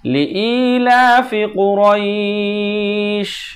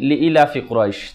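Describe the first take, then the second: First: The vowel after 'li' is held long. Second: The vowel after 'li' is cut short. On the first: The speaker calls it right. "লি ই একালিফ টান" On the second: The speaker calls it wrong. "তাহলে একটি অক্ষর বাদ চলে গেল।"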